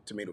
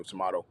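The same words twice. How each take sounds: First: "tomato" with a long ay in the middle; tomato as "to-may-to". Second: "tomato" with an open ah in the middle; tomato as "to-mah-to". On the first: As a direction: say "tomato" as tuh-MAY-toh. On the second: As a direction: say "tomato" as tuh-MAH-toh. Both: Shown as a demonstration. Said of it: "you know, tomato, tomato".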